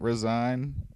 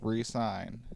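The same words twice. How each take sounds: First: It is said as the ordinary word resign. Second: It is said as re plus sign. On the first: The speaker calls it wrong. "It's not resign" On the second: The speaker calls it right. "It's re-signed so that it looks like that the Xbox wrote it"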